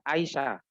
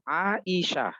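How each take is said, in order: First: It is said with Indonesian-style pronunciation. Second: It is said with original Arabic pronunciation. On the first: This is how the name became in Indonesia. "Di Indonesia jadinya" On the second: This is the original form of the name. "Padahal aslinya adalah"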